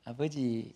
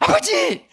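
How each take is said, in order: First: It is said calmly and flatly. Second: It is called out urgently and loudly.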